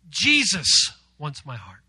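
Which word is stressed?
Jesus. The word Jesus is stressed. It is Jesus, the creator of all, who wants it. "give emphasis to Jesus"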